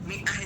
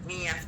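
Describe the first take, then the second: First: The middle consonant is a glottal stop. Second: The middle consonant is a y sound.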